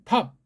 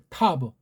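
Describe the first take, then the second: First: It ends with a short clipped p sound. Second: It ends with a released b plus vowel. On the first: "조금 정확하게 낸 거예요" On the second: "걔네식으로"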